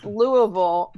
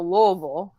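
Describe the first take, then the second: First: Every syllable is pronounced clearly. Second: The syllables are run together and slurred. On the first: "it's Louisville" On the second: "some people just go Louisville. So it you just have to say it like you're slurred"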